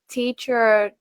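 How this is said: American accent, with a clear final r sound. "In American English it would be like"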